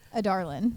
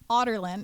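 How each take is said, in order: First: The name begins with an 'a-dar' sound. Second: The name begins with an 'otter' sound. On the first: The speaker calls it wrong. "how did you pronounce it?" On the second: The speaker calls it right. "is how it's pronounced"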